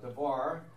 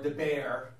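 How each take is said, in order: First: The middle consonant is a v sound. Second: The middle consonant is a b sound.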